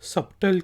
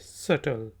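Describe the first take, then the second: First: A b sound is pronounced in the middle. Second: No b sound is pronounced in the middle. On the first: The speaker calls it wrong. "इसको मैं भी बहुत अरसे तक गलत pronounce करता रहा, सबटल कहता रहा" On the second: The speaker calls it right. "लेकिन ये है सटल"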